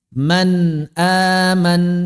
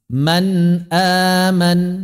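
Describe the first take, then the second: No difference in how they are said.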